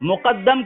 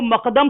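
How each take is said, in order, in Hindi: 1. यह 'mu' से शुरू होता है और इसमें दोहरा d है। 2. यह 'ma' से शुरू होता है और इसमें एक d है। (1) "मुकद्दम को" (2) "मकदम पढ़ रहा है"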